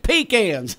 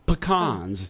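First: The word is pronounced the Southern way. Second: The word is pronounced the posh, uppity way. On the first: The speaker is a Southerner. "If you're a Southerner, you say it's pecans" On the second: The speaker is uppity. "If you're uppity, you say pecans"

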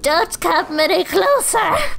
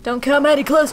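First: It is said in a funny put-on voice. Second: It is said in his normal voice.

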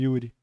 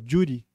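First: The name begins with a Y sound. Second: The name begins with a J-like sound. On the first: This is the usual way the name is said. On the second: This is how people in Buenos Aires say it.

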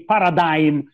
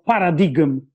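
First: The word is said with an American pronunciation. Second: The word is said with a Greek-style pronunciation. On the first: The speaker calls it wrong. "these Americans say paradigm because they are barbarians" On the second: The speaker calls it right. "if we want to use the Greek word"

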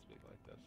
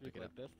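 First: The voice is quiet and soft. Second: The voice is loud and projected.

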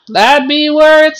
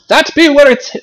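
First: It is said in the speaker's normal accent. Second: It is said in a put-on British accent.

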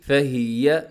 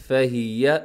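No difference in how they are said.

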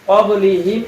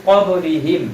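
Both takes have the same delivery.

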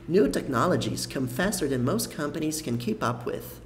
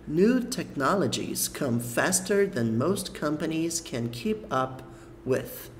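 First: It is read at a natural, normal speed. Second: It is read a little more slowly. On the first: "eu vou ler uma vez inteira como se fosse uma leitura natural" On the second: "Agora eu vou ler um pouco mais devagar"

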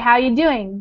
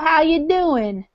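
First: It is said in a plain, neutral voice. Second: It is said with a country twang. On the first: "if I talk like this" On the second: "if I talk with a twang"

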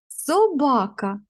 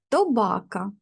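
First: The word begins with an s sound. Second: The word begins with a t sound. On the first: The speaker calls it right. "ви звук вимовили правильно" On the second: The speaker calls it wrong. "сказала я правильно чи ні?"

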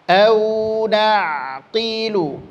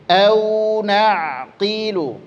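Both takes have the same delivery.

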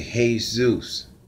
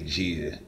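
First: The name is pronounced the Spanish way. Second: The name is pronounced the English way. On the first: The speaker calls it right. "You say Jesus" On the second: The speaker calls it wrong. "in Spanish, you don't say Jesus"

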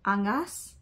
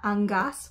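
First: The G is said soft, not hard. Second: The G is said hard. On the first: This is how others say the name. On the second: This is how the speaker had been saying it.

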